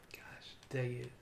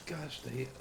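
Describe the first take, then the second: First: Slow breathy whisper. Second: Said in the usual way. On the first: Real, not acted. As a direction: whisper it under your breath. Same words repeated whispered.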